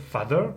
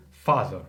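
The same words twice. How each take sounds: First: "father" with a short French A; French-sounding "father", vowel kept short and forward; wrong A sound. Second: "father" with a long back A, slowly; tongue back and mouth open on "father"; correct open A. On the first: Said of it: "tu vas pas dire father". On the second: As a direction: stretch the A of "father". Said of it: "langue soit à l'arrière et la bouche ouverte". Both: Shown as a demonstration.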